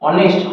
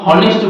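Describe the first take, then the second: First: The word begins with a vowel sound. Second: The word begins with an h sound. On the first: The speaker calls it right. "এইচ উচ্চারণ কিন্তু হচ্ছে না" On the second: The speaker calls it wrong. "হনেস্ট বলে না"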